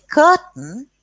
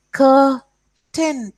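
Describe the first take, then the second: First: Said in the usual way. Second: Curtain drawn out very slowly as "cur... tain", pitched high; split into syllables. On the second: Shown as a demonstration. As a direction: break curtain into two separate beats, cur and tain. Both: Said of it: "two syllables".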